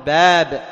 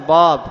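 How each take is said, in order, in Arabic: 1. الألف الطويلة صوتها مرقق ونحيف. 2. الألف الطويلة صوتها مفخم وممتلئ. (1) "أقول باب، تكون الألف إيش؟ مستفلة" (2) "ولا أقول باب"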